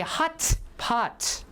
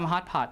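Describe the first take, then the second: First: The t in hot is fully released. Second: The t in hot is held without release. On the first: "careful pronunciation" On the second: "Or you can just say"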